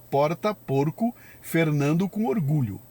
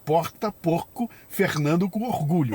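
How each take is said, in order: First: It is spoken in a São Paulo city accent. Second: It is spoken in a Rio de Janeiro accent. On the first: "Em São Paulo, capital, você fala" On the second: "No Rio de Janeiro, você fala"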